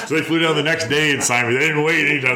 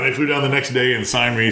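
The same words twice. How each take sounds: First: Real laugh through the words, pitched up. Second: Said in the usual way. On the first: Real, not acted. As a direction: chuckle as you tell it. Laughing while retelling signing.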